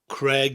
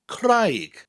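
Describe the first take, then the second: First: The vowel sounds like 'ay' in day. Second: The vowel sounds like 'eye' in high. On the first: It is the English personal name. "It looks like the name Craig" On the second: It is the Welsh word for rock. "that A I in the middle of the word gives an I sound"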